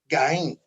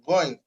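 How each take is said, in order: First: The first sound is a plain, hard g. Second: The first sound is a throaty, softened g. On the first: This is the local everyday way of saying it. "locally called as uh, Gain" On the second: This is the advanced, proper way of saying it. "not full G, in an advanced way, it is called Ghain"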